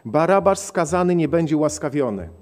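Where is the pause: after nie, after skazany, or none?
none. It is read flatly with no inner pause. "postaram się przeczytać tak monotonnie"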